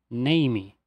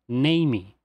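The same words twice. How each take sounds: No difference in how they are said.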